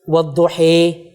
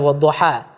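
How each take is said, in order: First: The final vowel leans toward an i sound. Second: The final vowel is a plain open a.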